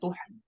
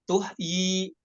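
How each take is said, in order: First: The word ends with a single y sound. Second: The word ends with a doubled y sound. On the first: The speaker calls it right. "jadi dibacanya tuhyi" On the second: The speaker calls it wrong. "salah ya"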